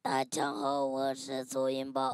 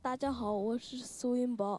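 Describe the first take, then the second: First: It is said in a put-on, transformer-like voice. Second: It is said in the speaker's natural voice.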